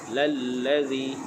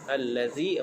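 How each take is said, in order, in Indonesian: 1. Kata ini dimulai dengan bunyi l. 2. Kata ini dimulai dengan bunyi vokal yang jelas. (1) "yang dibaca dengan lallazi" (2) "apabila ada lam selepas hamzah wasal"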